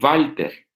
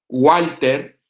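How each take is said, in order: First: The name begins with a V sound. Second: The name begins with a W sound. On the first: This is how German speakers say it. "ellos lo mencionan como Walter" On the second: This is how Spanish speakers say it. "los que se llaman con W, como Walter"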